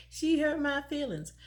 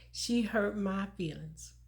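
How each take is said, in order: First: Laughing through the words; amused at her younger self; said with a chuckle, a bit higher. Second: Said in the usual way. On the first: Retold or imitated. Repeats quote laughing at herself.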